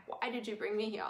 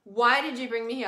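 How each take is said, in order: First: Soft, hushed retelling of a tearful question; lightly imitated tearful whisper-like plea; retold quiet plea. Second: Louder, pleading repeat of the question; mild retold tearful cry; retold crying plea. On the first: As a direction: ask it quietly, as if to the land. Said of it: "I was just bawling my eyes out". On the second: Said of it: "I was bawling my eyes out, crying".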